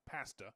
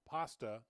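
First: It is said with a Canadian pronunciation. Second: It is said with a non-Canadian pronunciation. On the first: The speaker calls it wrong. "not pasta, unless yours is a Canadian pronunciation" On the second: The speaker calls it right. "it's pronounced pasta"

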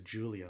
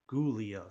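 First: The name starts with a J sound. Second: The name starts with a hard G sound. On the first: This is how it is pronounced now in the US. "making the G more into like a J" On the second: This is how it used to be pronounced. "more like with the G, emphasizing the G"

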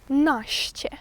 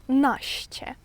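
Both takes have the same delivery.

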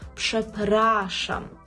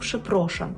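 First: The second syllable has the vowel a. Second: The second syllable has the vowel o. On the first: The speaker calls it right. "«пшепрашам» вимовляємо з «а»" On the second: The speaker calls it wrong. "Дуже часто чую від студентів помилку «пшепрошам»"

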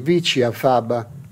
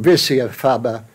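First: It is pronounced with an Italian accent. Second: It is pronounced with an English accent. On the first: "in Italian" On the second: "in English"

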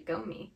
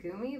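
First: The first vowel sounds like 'oh'. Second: The first vowel sounds like 'oo'. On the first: The speaker calls it right. "it's actually Gomi" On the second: The speaker calls it wrong. "I've always pronounced it Gumi"

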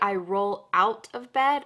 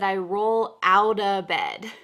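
First: The T in 'out' is a clear T. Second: The T in 'out' sounds like a D. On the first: The speaker calls it wrong. "I didn't say I roll out of bed" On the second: The speaker calls it right. "The T here is going to change to a D sound"

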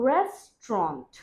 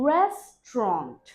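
The two takes are said the same way.

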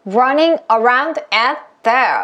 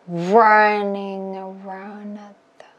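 First: Every word is pushed out with equal force. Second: Only the first word is punched; the rest is relaxed. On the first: The speaker calls it wrong. "이렇게 하면은 절대 이 속도를 따라갈 수가 없어요" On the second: The speaker calls it right. "이렇게 힘 뺐어 라는 걸 보여주는 거예요"

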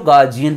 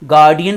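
First: The middle consonant is a 'j' sound. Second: The middle consonant is a 'd' sound. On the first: "वैसे exact pronunciation गार्जियन है" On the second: "गार्डियन भी बोल सकते हो"

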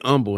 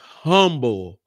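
First: It is said the way Texans say it. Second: It is said the way everyone else says it. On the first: "They say humble in Texas" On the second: "everybody else, we call it humble"

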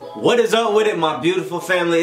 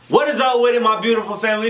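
First: It is said with low energy. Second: It is said with high energy.

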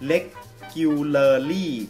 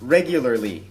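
First: The R sounds are pronounced as L sounds. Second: The R sounds are pronounced as R sounds. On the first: The speaker calls it wrong. "หลายๆคนอาจจะออกเสียงเป็น regularly ตัวเป็นตัว L หมด" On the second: The speaker calls it right. "จะต้องอ่านออกเสียงเป็น regularly"

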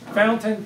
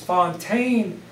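First: It is said like the English word fountain. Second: It is said like the French name Fontaine. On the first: This is how locals say it. The speaker calls it wrong. "which we Louisvillians always mispronounce" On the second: This is the original form of the name. The speaker calls it right. "It's Fontaine"

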